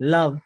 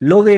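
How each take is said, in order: First: The vowel is a short 'uh' sound. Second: The vowel is a rounded 'oh' sound. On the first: The speaker calls it right. "अ म्हणतोय" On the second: The speaker calls it wrong. "लोवे नाही म्हणत आपण"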